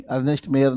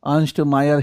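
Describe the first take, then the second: First: "अर्नेस्ट मेयर" with an extra e in the first name and an ay vowel in the surname; mispronounced name. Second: "अर्नस्ट मायर" with a one-beat first name and an eye vowel in the surname; correct German-style pronunciation. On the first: Teacher correcting students' slip, name mispronounced. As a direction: say "अर्नेस्ट मेयर" like "Ernest MAY-er". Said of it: "नहीं है". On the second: Teacher giving students the corrected name, correctly pronounced. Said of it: "अर्नेस्ट मेयर नहीं है". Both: Shown as a demonstration.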